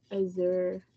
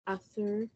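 First: "azure" said with a soft buzzing z, uh-ZER. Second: "azure" said with an s, USS-er. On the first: Co-host sounding out a colour name, "azure" as uh-ZER. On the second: Co-host trying another reading, "azure" as USS-er. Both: Shown as a demonstration. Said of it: "Is it azure or azure?".

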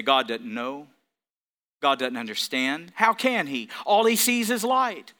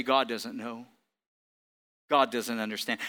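First: Mocking Satan voice. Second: Low, soft, sly voice of Satan; Satan's lie. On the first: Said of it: "and say". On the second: Retold or imitated. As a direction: hiss out the lie in a lower, softer voice. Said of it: "And he would say".

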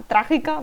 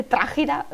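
First: Said in the usual way. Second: Trágica fumbled as "trágira"; tongue-tied slip. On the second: Real, not acted. Speaker fumbling a word in their story, trágica garbled as "trágira". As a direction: stumble on the c of trágica, saying "trágira". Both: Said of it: "madre mía, no sé ni hablar".

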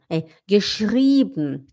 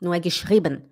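First: Slow geschrieben with long ie; careful German geschrieben; correct geschrieben. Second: Geschrieben said quickly, mock-foreign; wrong geschrieben. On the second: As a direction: toss off geschrieben carelessly. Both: Shown as a demonstration.

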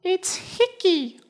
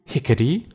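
First: "Hickey" said as two syllables, HICK-ey, very high; corrected name. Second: "Hickety" said with an extra syllable, HICK-e-ty; wrong name. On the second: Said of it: "No, it's Hickey". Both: Acted.

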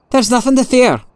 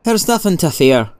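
First: High-pitched, insistent reassurance; uneasy, strained-high repeat of a stock phrase; agitated reassurance. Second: Placid, untroubled reassurance; mildly reassuring, no urgency. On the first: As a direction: insist on it in a much higher voice. Prisoner pulls hand away, insists. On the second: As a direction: say it placidly, a little higher. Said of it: "Moriarty said in placid tones". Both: A narrator's reading.

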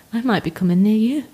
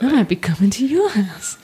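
First: Creepy voice. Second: Menacing, teasing creepy tone. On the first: Real, not acted. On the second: Shown as a demonstration. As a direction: play up the creepy stalker. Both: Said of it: "in such a creepy voice".

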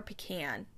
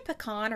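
First: Pecan said pih-KAN, rhyming with can; pih-KAN pronunciation. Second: Pecan said puh-KAHN, stress on the second syllable; puh-KAHN pronunciation. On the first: Host offers the rival version, pecan as pih-KAN. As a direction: say pecan with a short A in the last syllable. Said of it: "Do you say pecan or". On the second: Host opens a pronunciation debate, pecan as puh-KAHN. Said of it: "should really make this a debate". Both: Shown as a demonstration.

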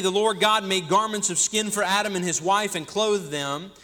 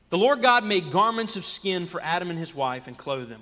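First: Eager, rushing the verse; running ahead with excitement; too excited. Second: Calmer, deliberate reread; slowed down. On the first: Preacher gets ahead of himself reading Genesis, eager. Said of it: "I'm getting too excited". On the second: Preacher rereads the verse to his church, calmer and slower. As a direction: take the verse again, steady and measured. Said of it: "wait, let me slow down". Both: Real, not acted.

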